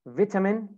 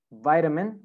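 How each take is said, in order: First: British "vitamin" with short "vit" first syllable; British accent. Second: American "vitamin", first syllable like "vite"; American accent. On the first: Teacher models British "vitamin" for students, short first vowel. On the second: Teacher models American "vitamin" for students, long I. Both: Shown as a demonstration.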